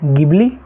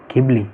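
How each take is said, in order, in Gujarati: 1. આ શબ્દ સાદા hard g થી શરૂ થાય છે. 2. આ શબ્દ aspirated gh થી શરૂ થાય છે. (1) "ગિબલી કે ઘીબલી નથી" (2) "ગિબલી કે ઘીબલી નથી"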